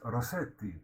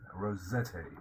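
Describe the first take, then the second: First: The middle consonant is an s sound. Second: The middle consonant is a z sound. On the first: This is the original Italian pronunciation. "it should be pronounced Rossetti" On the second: This is the usual English pronunciation. "the English pronunciation is Z"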